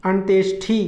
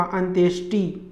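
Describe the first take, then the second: First: अंत्येष्टि ending in aspirated "thi"; wrong अंत्येष्टि. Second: अंत्येष्टि ending in unaspirated "ti"; no puff in the ti of अंत्येष्टि; correct अंत्येष्टि. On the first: Teacher showing the error, अंत्येष्टि as "antyeshthi". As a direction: puff the last syllable of अंत्येष्टि. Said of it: "ठी नहीं होगा". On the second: Teacher giving correct form, अंत्येष्टि as "antyeshti". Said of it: "टी होगा". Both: Shown as a demonstration.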